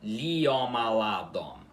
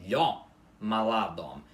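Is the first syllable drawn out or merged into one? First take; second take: drawn out; merged. First: The i is long, forming its own syllable. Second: The i glides quickly into one syllable. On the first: The speaker calls it wrong. "e não" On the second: The speaker calls it right. "a pronúncia correta da palavra é"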